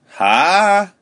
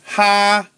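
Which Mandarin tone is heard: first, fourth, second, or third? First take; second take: second; first. First: It is said with the second tone. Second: It is said with the first tone. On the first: "second tone" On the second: "first tone"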